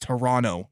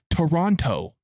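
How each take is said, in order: First: The second T is dropped. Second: The second T is clearly pronounced. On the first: The speaker is Canadian. The speaker calls it right. "You don't pronounce the T. It's Toronto" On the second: The speaker is not Canadian. The speaker calls it wrong. "If they're not Canadian, they'll say Toronto"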